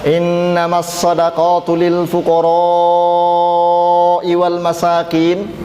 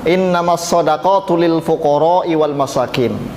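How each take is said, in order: First: The vowel in fuqara'i is held six counts long. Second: The vowel in fuqara'i is held short. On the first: The speaker calls it right. "dibaca mat wajib itu enam harokat" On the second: The speaker calls it wrong. "Bacanya seperti itu"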